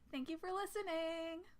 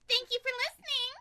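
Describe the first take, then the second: First: It is said in a plain, normal voice. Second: It is said in a put-on cute voice.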